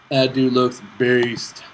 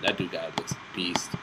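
First: Slow, drawn-out and louder; "That dude looks beast" said loud and very slowly; slow emphasis. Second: Soft unvoiced whisper of awe; whispering "That dude guy looks beast" under the breath. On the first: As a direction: savor each word, impressed. Repeats it aloud. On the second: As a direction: breathe it out, impressed. Admiring a champion. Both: Real, not acted.

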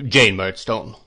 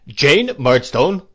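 First: Firm, louder, level-pitched command; stern warning. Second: Loud, slow, raised-pitch command; thundering. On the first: Brother silences his sister, stern warning. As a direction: check her by name, controlled. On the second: Brother silences his sister, thundering. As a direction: thunder her name. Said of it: "thundered Mister Murdstone". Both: A narrator's reading.

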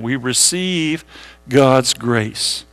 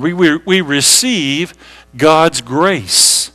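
First: Slow and soft, spaced for writing; quiet, slow repeat to copy down; slow dictation. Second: Slow, deliberate, each word set apart; paced out for note taking; slow dictation. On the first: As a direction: read it out slowly for notes. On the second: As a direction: say it slowly so they can write it down. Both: Shown as a demonstration. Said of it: "Write that down".

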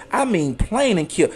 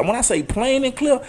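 First: Slow, each word of plain and clear leaned on; plain and clear spelled out slowly and firmly; emphatic. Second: Said in the usual way. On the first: Shown as a demonstration.

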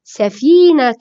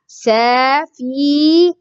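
First: سفينة as one word with a long "fii"; joined-up pronunciation. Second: سفينة very slowly, saa-fiii, naa-tun; syllable by syllable. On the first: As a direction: blend سفينة back together. (نطق سفينة كلمة واحدة) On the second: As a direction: draw out each syllable of سفينة. (تهجئة سفينة ببطء شديد) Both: Shown as a demonstration. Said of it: "كيف ننطقها".

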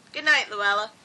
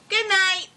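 First: Said in the usual way. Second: High, bright-pitched character farewell; cheery Luella. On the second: A narrator's reading. Luella saying good night to Norton, cheery and high.

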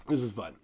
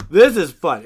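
First: Said in the usual way. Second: Louder, higher burst of real fun; excited. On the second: Real, not acted. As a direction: punch it out with real delight. Repeats phrase, second time louder.

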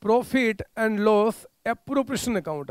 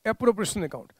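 First: Each word drawn out slowly for notes; spelled out at dictation pace. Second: Said in the usual way. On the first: Shown as a demonstration. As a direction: dictate it slowly so students can write. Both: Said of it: "आपने बोला by".

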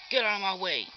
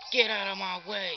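No difference in how they are said.

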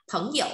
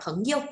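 First: "Phấn hiểu" with a full dipping tone on "hiểu"; Taiwanese reading. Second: "phấn yêu" with "yêu" left toneless; mainland neutral tone. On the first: Teacher shows class the Taiwan variant, "hiểu" fully toned. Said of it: "người Đài Loan thì sẽ hay đọc là phấn hiểu". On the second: Teacher shows class the mainland variant, "yêu" unstressed and toneless. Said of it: "bỏ cái dấu thanh điệu đằng sau". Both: Shown as a demonstration.

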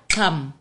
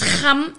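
First: "Kham" starting on a hard K; Xhosa pronunciation. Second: "Kham" with a guttural Khoi G; Khoi pronunciation. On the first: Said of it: "instead of the Xhosa Kham". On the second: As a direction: start "Kham" on a throaty fricative, not a K. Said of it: "in Khoi, it's pronounced a G". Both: Shown as a demonstration.

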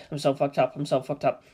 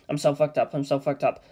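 Both takes have the same delivery.

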